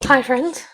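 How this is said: The greeting sounds forceful and aggressive.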